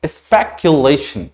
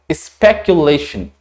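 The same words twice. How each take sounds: First: स्पेकुलेशन again slowly, s unvoiced, falling at the end; slow deliberate स्पेकुलेशन to be copied; careful pronunciation. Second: Slow and clear स्पेकुलेशन for the class; careful pronunciation. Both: Shown as a demonstration. Teacher repeating the word slowly for students. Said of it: "क्या बोलेंगे इसको?".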